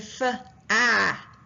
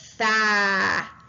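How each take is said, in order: First: An extra uh sound separates consonant and vowel. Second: The consonant runs straight into the vowel. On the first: The speaker calls it wrong. "it doesn't say f-ah" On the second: The speaker calls it right. "it says fa"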